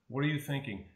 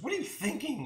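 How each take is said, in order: First: It sounds like a sincere, curious question. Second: It sounds like an accusing, insulting question.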